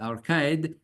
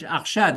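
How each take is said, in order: First: The name is pronounced the English way. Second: The name is pronounced the French way. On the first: "we have a sort of uh, uh, English pronunciation" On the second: "we should say in French"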